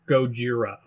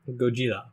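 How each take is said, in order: First: The middle consonant is a hard 'j' sound. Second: The middle consonant is a soft 'dz' sound. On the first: The speaker calls it wrong. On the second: The speaker calls it right. "it's more like a um"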